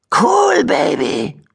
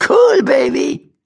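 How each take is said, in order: First: High cheeky squeak on Cool; amazed high cheeky rat voice. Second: High, slow Cool rising, cheeky rat; high slow cheeky rat call. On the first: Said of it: "staunte eine freche Stimme". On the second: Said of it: "rief das Tierchen". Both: Acted.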